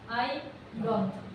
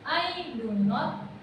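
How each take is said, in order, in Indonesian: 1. Do dan not menyatu menjadi satu suku kata pendek. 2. Do dan not diucapkan sebagai dua kata terpisah. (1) "itu bisa jadi don" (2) "beda cara bacanya"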